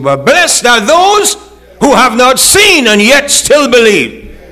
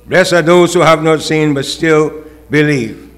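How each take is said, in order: First: Slow, higher, louder; preached blessing. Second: Said in the usual way. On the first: Acted. Jesus blessing unseen believers, slow and lifted. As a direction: draw out the blessing.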